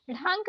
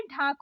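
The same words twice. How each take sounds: First: ढांक with flapped start and nasal vowel; wrong ढांक. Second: ढाक with aspirated DH, oral vowel; correct stopped ढ. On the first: Teacher showing learners the mistake, nasal ढांक. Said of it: "नहीं होता है". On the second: Teacher correcting learners, stopped ढाक. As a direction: start ढाक with firm ढ. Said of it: "होता है". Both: Shown as a demonstration.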